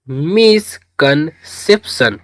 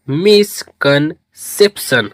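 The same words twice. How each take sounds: First: मिसकंसेप्शन said slowly, syllable by syllable; teacher models मिसकंसेप्शन slowly and clearly; slow spelled-out pronunciation. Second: मिसकंसेप्शन repeated slowly, syllable by syllable. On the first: Hindi teacher drills students on the word, slow and clear. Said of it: "तो अब इसको मिलाकर पढ़ेंगे". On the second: Teacher repeats the word for students, slow. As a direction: echo मिसकंसेप्शन slowly for the class to copy. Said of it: "क्या पढ़ेंगे?". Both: Shown as a demonstration.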